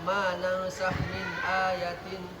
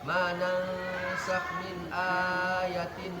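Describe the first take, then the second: First: A long vowel is cut too short. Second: A long vowel is stretched too long. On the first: "angnya kurang" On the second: "hanya kepanjangan"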